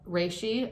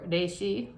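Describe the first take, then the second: First: It is said the anglicized English way. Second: It is said the Japanese-style way. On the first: The speaker calls it wrong. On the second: The speaker calls it right.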